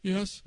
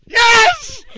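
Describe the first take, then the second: First: Soft, held-back "yes"; discreet answer. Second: Very high, loud "yes!"; exasperated yell. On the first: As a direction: keep your answer down. Quiet answer before the yell. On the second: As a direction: shout it so a deaf man hears. Yelling at deaf grandfather. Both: Retold or imitated.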